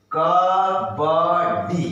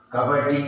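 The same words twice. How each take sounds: First: Syllables stretched; slowly sounded out; slow drawn out. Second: Said in the usual way. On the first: Shown as a demonstration. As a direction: pull each sound long. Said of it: "slow drawn demo". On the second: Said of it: "normal take".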